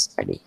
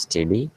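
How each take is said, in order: First: "study" with an "uh" in the first syllable; pronunciation of study. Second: "steady" with an "e" in the first syllable; pronunciation of steady. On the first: Teacher contrasting two similar words for students, careful demonstration of "study". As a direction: contrast "study", vowel as in cup, dropping lower. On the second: Teacher contrasting two similar words for students, careful demonstration of "steady". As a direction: contrast "steady", vowel as in bed, rising at the end. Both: Shown as a demonstration. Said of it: "This is the difference in pronunciation".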